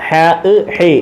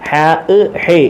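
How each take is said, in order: Both takes have the same delivery.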